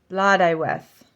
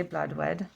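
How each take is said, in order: First: "Blood Iweth" with an EYE syllable mid-word; loud "Blood Iweth", blod-EYE-weth; corrected pronunciation. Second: "bloodwed" as two syllables; "bloodwed" run together, no middle vowel; habitual mispronunciation. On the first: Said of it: "Oh, that's not, okay". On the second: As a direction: say "bloodwed" with a short WED ending. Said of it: "I always say bloodwed". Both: Shown as a demonstration.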